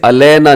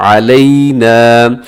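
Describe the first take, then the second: First: अलैना with a flat "a-lay-na", no throaty ayn; quick अलैना with the diphthong flattened to "ay"; wrong pronunciation. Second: अलैना with throaty ayn and long "ay-ee" glide; slow, held अलैना; correct tajweed. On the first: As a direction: say अलैना casually, Urdu-style. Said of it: "इसे अलैना नहीं पढ़ना". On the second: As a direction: draw अलैना out slowly, opening with a clear ayn. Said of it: "अलैना गलत है". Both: Shown as a demonstration.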